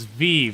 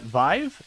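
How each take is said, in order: First: The name rhymes with 'leave'. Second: The name does not rhyme with 'leave'. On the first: The speaker calls it right. "like leave" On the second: The speaker calls it wrong. "Am I pronouncing that correct?"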